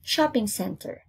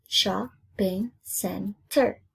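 First: Said in the usual way. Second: SHOPPING CENTER slowly split into shop, ping, cen, ter; syllable by syllable. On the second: Shown as a demonstration. Teacher counting four syllables for pupils, syllable by syllable. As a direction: break "Shopping center" into four slow beats. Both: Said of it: "Four syllables".

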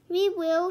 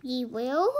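First: High, loud, eager volunteering; shouted. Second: WILL swooping up as a question; questioning echo. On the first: Annie volunteering for the quest, shouting. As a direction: call it out at once. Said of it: "shouted Annie". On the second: Reply to Annie's offer, questioning rise on WILL. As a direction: echo it doubtfully, lifting WILL. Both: A narrator's reading.

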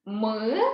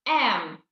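First: "М" as the bare consonant sound, not "ем"; speech sound М. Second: "М" said as the letter name "ем"; name the letter "М" as a drawn-out "ем". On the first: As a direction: hum a short "М" without the letter name. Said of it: "Звук М". («М» як звук, а не назва літери) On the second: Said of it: "буква". («М» як назва букви: «ем») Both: Shown as a demonstration.

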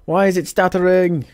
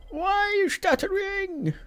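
First: Said in the usual way. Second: Squeaky, drawn-out whine at the game, much higher and softer; high whiny plea. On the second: Real, not acted. Streamer whining at his stuttering game in a high squeak. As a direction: plead with the broken game like a cartoon.

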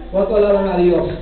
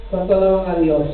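No difference in how they are said.

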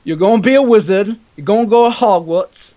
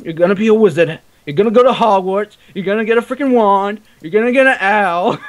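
First: High, loud mock English accent, Hagrid style; bad English accent. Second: Bad English accent. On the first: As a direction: ham up a terrible English accent like a Harry Potter spoof. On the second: Shown as a demonstration. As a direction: belt it out in a terrible English accent. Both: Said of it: "I had the worst English accent".

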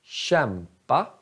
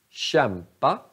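First: Kämpa with the k said as a tje sound; soft k in kämpa. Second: Kämpa said again with a tje sound; soft k in kämpa. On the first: (kämpa med tje-ljud) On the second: (kämpa igen med tje-ljud) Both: Shown as a demonstration. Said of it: "K Ä".

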